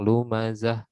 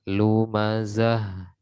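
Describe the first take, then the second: First: The final h is abruptly cut off. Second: The final h is soft with flowing breath. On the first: The speaker calls it wrong. "jangan dipotong" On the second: The speaker calls it right. "dibacanya lembut dan eh, nafasnya mengalir"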